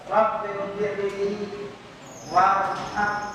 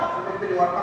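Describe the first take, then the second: First: It is said slowly and carefully. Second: It is said quickly and hurriedly.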